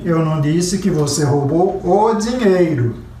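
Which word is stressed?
dinheiro. The stress falls on the word dinheiro. Something else was stolen. "Você roubou o relógio"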